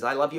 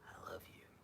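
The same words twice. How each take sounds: First: The phrase is said quickly, rattled off. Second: The phrase is said slowly, with feeling. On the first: The words are said without feeling. The speaker calls it wrong. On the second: The words carry real emotion. The speaker calls it right.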